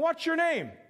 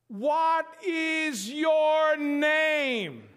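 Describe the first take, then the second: First: It is said at a normal pace and volume. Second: It is said slowly and loudly, word by word.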